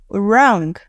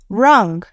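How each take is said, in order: No difference in how they are said.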